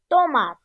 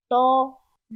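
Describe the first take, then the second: First: Said in the usual way. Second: "Tomate" détaché en to-ma-te, plus fort; syllabes frappées. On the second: Shown as a demonstration. ("Tomate" scandé syllabe par syllabe) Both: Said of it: "Frappons les syllabes".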